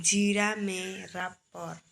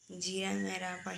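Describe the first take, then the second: First: जीरा said slowly and louder with रा stressed; जीरा with the weight on रा. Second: Said in the usual way. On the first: Shown as a demonstration. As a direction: hit रा in जीरा.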